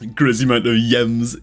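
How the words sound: Gems begins with a Y sound.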